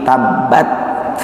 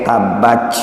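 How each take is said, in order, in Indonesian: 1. Huruf t akhirnya dilepas dengan desisan napas. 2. Konsonan itu terdengar seperti bunyi 'ch'. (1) "tapi tabbat, hanya saja berdesis, ada anginnya" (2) "bukan kemudian dibaca seperti huruf C"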